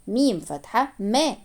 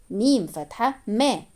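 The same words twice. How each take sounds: The two takes are said the same way.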